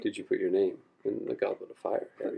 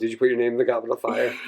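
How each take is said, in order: First: It is asked in a calm, quiet way. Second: It is yelled in an agitated way.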